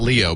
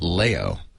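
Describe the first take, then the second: First: The name does not rhyme with Mayo. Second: The name rhymes with Mayo. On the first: The speaker calls it wrong. "which is not Leo" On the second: The speaker calls it right. "but Leo"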